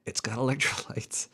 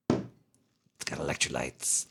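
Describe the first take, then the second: First: Breathy whisper of the slogan. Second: Slow, lower voice; slow low movie voice. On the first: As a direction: whisper it like a secret. Quoting drink slogan. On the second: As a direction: drag it out slowly and low. Repeats slogan differently. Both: Pretend.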